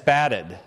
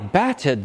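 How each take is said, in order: First: The middle consonant is a short flap. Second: The middle consonant is a full, clear t. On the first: The speaker calls it right. "the ta is changing to a flap" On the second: The speaker calls it wrong. "what you say is not"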